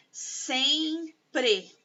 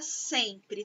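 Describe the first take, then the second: First: "sempre" split slowly into SEM and PRE; stretched, separated syllables on "sempre". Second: Said in the usual way. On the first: Shown as a demonstration. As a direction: sound out "sempre" in two long beats, full final E. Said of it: "ela tem dois sons". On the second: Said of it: "tem quantos sons?".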